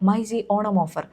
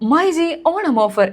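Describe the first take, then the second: First: The voice is small, quiet and held back. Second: The voice is full, open and projected. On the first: The speaker calls it wrong. "ഇത്ര മാത്രമേ നമ്മുടെ ശബ്ദം പുറത്തേക്ക് വരുള്ളൂ" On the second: The speaker calls it right. "എൻ്റെ കൈ ഇങ്ങനെ വരുന്നുണ്ട്"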